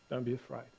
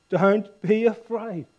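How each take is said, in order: First: Soft, low, gentle comfort; kindly reassurance. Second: Higher, slow, drawn-out scripture reading; emphatic reassurance. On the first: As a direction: speak it softly as a tender reassurance. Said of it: "speaking to you kindly". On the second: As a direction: reassure them firmly, stretching the words. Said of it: "And he reassured them". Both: Acted.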